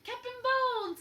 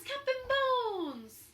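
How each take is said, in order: First: High, loud hollering; pirates' cry. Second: High, loud and slow, stretching the name; drawn-out pirates' cry. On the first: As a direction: bellow it like a crew of pirates. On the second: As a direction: holler it long and slow. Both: Acted. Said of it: "The pirates took up the cry".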